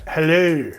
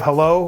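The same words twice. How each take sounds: First: Hello said the Australian way, ending on a rounded oo, heh-loo; a light Australian Hello, vowel pushed to oo; playful Aussie Hello. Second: Said in the usual way. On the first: Shown as a demonstration. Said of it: "what do they say?". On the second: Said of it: "instead of".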